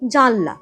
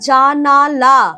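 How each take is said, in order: First: The word is said with two syllables. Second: The word is said with three syllables. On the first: This is the everyday spoken form. "এগুলো একটাও কিন্তু এরা প্রকৃত শব্দ নয়।" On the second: This is the original standard form. "এর আসল শব্দটা হচ্ছে জানালা।"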